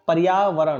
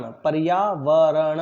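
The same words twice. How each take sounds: First: Said in the usual way. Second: पर्यावरण drawn out very slowly, each syllable separated; very slow pronunciation. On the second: Shown as a demonstration. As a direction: break पर्यावरण into slow, distinct syllables for the class. (पर्यावरण का बहुत धीमा, टुकड़ों में उच्चारण) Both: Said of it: "मैं बोलूँगा".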